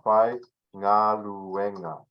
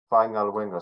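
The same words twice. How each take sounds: First: Fai Ngaluenga drawn out slowly, syllable by syllable; slow pronunciation demo. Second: Said in the usual way. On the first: Shown as a demonstration. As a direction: spell out 'Fai Ngaluenga' slowly for learners. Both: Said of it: "I'll just say it like this".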